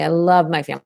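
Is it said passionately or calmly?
passionately. It is said with intense, passionate feeling.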